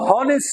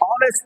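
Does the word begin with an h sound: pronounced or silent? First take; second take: pronounced; silent. First: The word begins with an audible h sound. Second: The word begins directly with a vowel sound. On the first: The speaker calls it wrong. "हम हॉनेस्ट नहीं पढ़ेंगे" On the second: The speaker calls it right. "ऑनेस्ट पढ़ेंगे"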